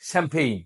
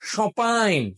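First: English vowels with an m sound. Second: French vowels with no m sound. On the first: "ইংরেজরা কি বলে জানেন" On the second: "real যারা ফরাসি তারা এই এম উচ্চারণ করবে না"

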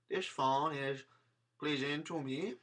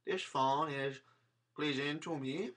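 First: It is said in a Spanish accent. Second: It is said in a Spanish accent.

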